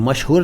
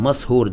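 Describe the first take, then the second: First: The middle is a single 'sh' sound. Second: The middle is a separate 's' then 'h'. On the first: Someone has become famous. "मशहूर नहीं कह रहा हूँ" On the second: Someone has been put under a spell. "मशहूर का मतलब वो जिस पर जादू हो गया हो"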